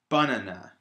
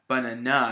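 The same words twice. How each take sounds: First: The stress is on the first syllable. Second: The stress is on the last syllable. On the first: "if I was to put the stress on the first syllable" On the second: "if I put the stress on the last syllable"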